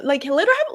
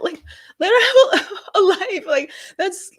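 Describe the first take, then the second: First: Said in the usual way. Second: Much higher, laughing in frustration; high laughing outburst of frustration; exasperated laugh. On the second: Real, not acted. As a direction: laugh out the plea in disbelief.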